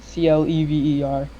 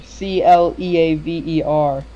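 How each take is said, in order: First: Spelled C L E V E R, letter by letter, without the A; wrong spelling. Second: Spelled C L E A V E R slowly, letter by letter. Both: Shown as a demonstration. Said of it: "not C L E V E R".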